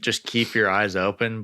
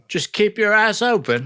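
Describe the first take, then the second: First: It is said in the speaker's ordinary accent. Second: It is said in an imitated foreign accent.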